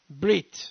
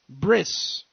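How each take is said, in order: First: The word ends with a t sound. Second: The word ends with an s sound.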